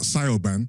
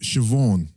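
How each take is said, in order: First: The name begins with a 'sigh' sound. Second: The name begins with a 'shiv' sound. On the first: The speaker calls it wrong. "Not not not Sayoban" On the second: The speaker calls it right. "let's go to Siobhan"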